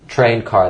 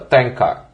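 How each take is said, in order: First: It is said in a plain accent. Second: It is said with a Hispanic accent.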